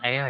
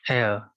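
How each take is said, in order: First: The word sounds like 'ah-eer', with separate vowels. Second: The word sounds like 'eh-uh', one gliding vowel. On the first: The speaker calls it wrong. "bukan air ya" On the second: The speaker calls it right. "ini bacanya gitu ya"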